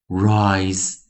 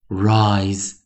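No difference in how they are said.

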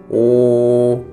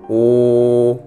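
Both takes have the same delivery.

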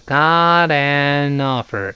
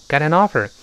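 First: It is read slowly, each word drawn out. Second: It is read at normal speed, smoothly linked. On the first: "如果读慢就是got an offer" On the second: "我在常速朗读和常速跟读时就读成了I've got an offer"

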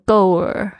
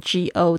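First: The word ends with a curled R-like sound. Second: The word ends without any final L sound. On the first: "很多同学呢会不小心卷起来，就变成goer" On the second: "如果只有go 然后舌头没有动作的话呢，就会变成go"

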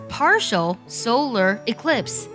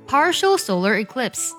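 First: The phrase is said at a slower pace. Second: The phrase is said at a faster pace.

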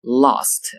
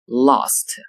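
First: It is said in a British English accent. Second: The same.

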